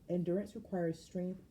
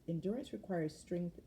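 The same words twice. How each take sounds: Both takes have the same delivery.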